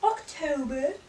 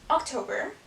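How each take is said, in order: First: October drawn out in an exaggerated accent; October in a mock accent; put-on accent. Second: Said in the usual way. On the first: Shown as a demonstration. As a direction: replay the accidental accent on October. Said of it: "say that in an accent". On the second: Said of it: "Why did I just say that in an accent?".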